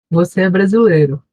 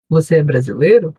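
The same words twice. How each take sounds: First: "Você é brasileiro?" com subida de pergunta. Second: Said in the usual way. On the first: Shown as a demonstration. (leitura de exemplo de pergunta "Você é brasileiro?") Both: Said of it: "É esse tipo de pergunta".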